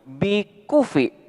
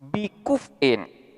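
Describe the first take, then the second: First: The word ends with a vowel. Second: The word ends with an -in sound. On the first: "dilakukan wakaf nakal maka akan menjadi" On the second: "lafaz bikuf'in"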